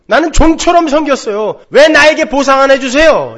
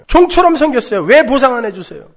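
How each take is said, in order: First: Much higher and louder, stressing 종처럼; aggrieved demand. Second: High, loud, punching 종처럼 then 왜; aggrieved demand. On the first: Elder son complaining to his father, loud aggrieved demand. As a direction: demand the reward you earned. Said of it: "스스로 그렇게 이야기하고 있어요". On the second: Elder son demanding payment from his father, high aggrieved whine. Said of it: "이야기하는 거예요". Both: Retold or imitated.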